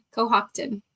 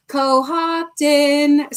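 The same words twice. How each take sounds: First: Said in the usual way. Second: Cohocton slow, with the weight on hoc; stress on the second syllable. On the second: Shown as a demonstration. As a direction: lean on the middle syllable of Cohocton, co-HOC-ton. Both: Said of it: "the emphasis is on the second syllable".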